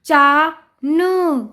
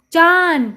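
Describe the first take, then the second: First: चा न drawn out, each sound separate. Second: Said in the usual way. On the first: Shown as a demonstration. Teacher sounding out a word for children, syllable by syllable. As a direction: stretch चा, pause, then न. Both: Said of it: "उच्चारण करके पढ़ लिया".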